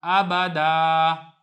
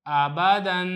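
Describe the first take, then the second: First: "आबादा" ending on a long open aa, no n; slow "आबादा", louder, held final aa; waqf ending. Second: "आबादन" ending on a long humming n; tanween ending, no pause form. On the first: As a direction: stop on "आबादा" with the last vowel stretched. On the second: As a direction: read "आबादन" joined, closing on the nasal "-an". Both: Shown as a demonstration. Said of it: "आगे वक़फ़".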